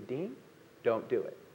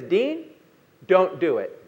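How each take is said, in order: First: It is said a little more softly. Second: It is said clearly and at full volume.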